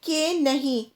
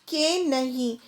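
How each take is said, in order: Both takes have the same delivery.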